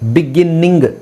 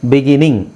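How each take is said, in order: First: The n sound is doubled and pressed. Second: The n sound is single and light. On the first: The speaker calls it wrong. "ನಿಂಗ್ ಅಂತ ಒತ್ತಿ ಹೇಳೋದಿಲ್ಲ" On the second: The speaker calls it right. "Just ನಾವು ಬಿಗಿನಿಂಗ್ ಅಷ್ಟೇ"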